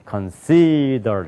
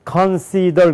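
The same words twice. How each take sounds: First: One syllable is stressed over the others. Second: All syllables are said with even weight. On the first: This is how Americans read it. The speaker calls it right. "그래서 consider 이렇게 된단 말이에요" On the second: This is how Koreans read it. The speaker calls it wrong. "consider 그러잖아요"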